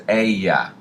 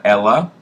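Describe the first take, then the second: First: Ella said with a Y sound, like "eh-ya"; ella with the L's turned into a Y; correct pronunciation. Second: Ella said with a clear L sound, like "el-la"; ella as "el-la", the mistake to avoid; wrong pronunciation. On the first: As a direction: pronounce ella correctly as "eh-ya", double L as Y. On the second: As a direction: pronounce ella wrongly as "el-la" with a hard L. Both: Shown as a demonstration. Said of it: "The two L's, remember, make a Y sound".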